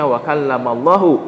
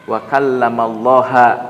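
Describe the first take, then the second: First: The name ends with an 'u' vowel. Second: The name ends with an 'a' vowel. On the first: God is the one who speaks. The speaker calls it right. "bukan membaca" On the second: God is the one spoken to. The speaker calls it wrong. "fathah, mansub"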